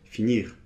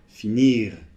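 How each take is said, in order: First: The final R is light and brief. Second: The final R is strongly exaggerated. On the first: The speaker calls it right. "Non, c'est finir" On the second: The speaker calls it wrong. "là, j'exagère un peu"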